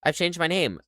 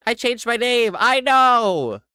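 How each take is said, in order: First: Said in the usual way. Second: Loud, high exasperated yell; mock outburst. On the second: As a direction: shout it in exaggerated frustration. Mock outburst repeating the excuse.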